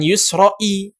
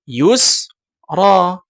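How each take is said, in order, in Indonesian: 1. Kata ini berakhir dengan tambahan bunyi 'i'. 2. Kata ini berakhir dengan bunyi 'a' panjang. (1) "bukan yusra'i" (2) "akan tetap dibaca yusra"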